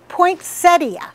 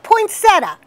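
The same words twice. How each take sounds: First: The word ends with a clear 'ee-uh' sound. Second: The word ends in 'tuh' without 'ee-uh'. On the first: The speaker calls it right. "That's right, poinsettia. It's got an I at the end" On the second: The speaker calls it wrong. "if you're dropping it, put it back, not poinsettia"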